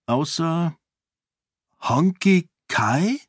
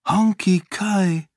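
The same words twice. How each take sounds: First: High, slow questioning rise; drawn-out, uncertain question; hesitant. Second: High, slow, falling statement; drawn-out, confused wonder; bewildered. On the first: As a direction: ask it tentatively, unsure of the name. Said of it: "Fragte sie zögernd". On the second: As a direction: say the name in dazed recognition. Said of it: "murmelte sie verwirrt". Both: A narrator's reading.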